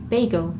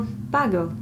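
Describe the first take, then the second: First: The word is said the usual way. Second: The word is said an imitated, unusual way.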